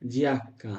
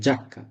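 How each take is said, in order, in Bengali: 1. শব্দটি একটি আলাদা 'ee' স্বরধ্বনি দিয়ে শুরু। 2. শব্দটি সরাসরি 'ja' ধ্বনি দিয়ে শুরু। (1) "নো, জিয়াক্কা না"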